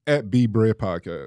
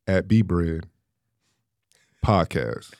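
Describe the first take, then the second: First: It is said at normal speed. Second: It is said slowly, with pauses.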